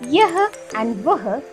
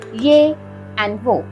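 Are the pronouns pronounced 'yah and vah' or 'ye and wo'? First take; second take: yah and vah; ye and wo. First: The pronouns are pronounced as written, yah and vah. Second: The pronouns are pronounced in reduced form, ye and wo. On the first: "We write these words as yah and vah" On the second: "but we can pronounce them as ye and wo"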